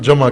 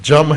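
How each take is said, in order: First: The word is said in a standard Pakistani accent. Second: The word is said in a Sialkoti accent. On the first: "اس کو یہاں جمع کہتے ہیں ہم پاکستان میں" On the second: "Sialkoti لہجے میں جم ہے"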